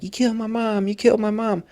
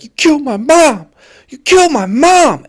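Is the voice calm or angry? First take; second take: calm; angry. First: It is said in a fairly calm voice. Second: It is said in a rising, angry voice.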